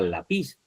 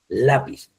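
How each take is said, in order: First: The stress is on the last syllable. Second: The stress is on the first syllable. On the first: The speaker calls it wrong. "Si usted no le pone la tilde, el acento eh, ortográfico, iría lápiz" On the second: The speaker calls it right. "es lápiz. Lleva la sílaba tónica en la letra A"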